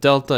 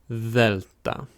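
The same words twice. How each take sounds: First: It begins with a D sound. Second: It begins with a voiced TH sound. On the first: This is the English name of the letter. "of course we call it delta" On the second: This is the Greek name of the letter. "more pronounced like a T H in the word then or the"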